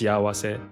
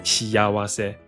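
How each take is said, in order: First: The vowels meet with no y sound between. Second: A y sound joins the first two vowels. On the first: This is the usual form of the word. "Normally it's pronounced shiawase" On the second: This is an unusual form used in one song. "they pronounced it shiyawase"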